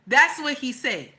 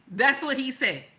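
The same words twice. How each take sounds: The two takes are said the same way.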